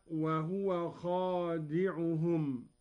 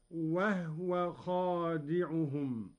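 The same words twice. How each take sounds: First: Said in the usual way. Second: وهو recited wahw, silent ha, slowly; slow وهو with the ha held silent; Qalun reading. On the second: Shown as a demonstration. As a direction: say وهو as wahw, no vowel after ha. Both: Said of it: "بإسكان الهاء هكذا".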